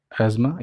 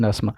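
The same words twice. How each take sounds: First: अस्थमा said "az-ma", with a z; American अस्थमा, "ez-ma", th silent; American pronunciation. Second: अस्थमा said "aas-ma", with s and silent th; British अस्थमा, "aas-ma"; British pronunciation. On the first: Teacher contrasting American and British forms, American pronunciation. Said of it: "ये American में". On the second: Teacher contrasting British and American forms, British pronunciation. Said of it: "ये है British pronunciation में". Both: Shown as a demonstration.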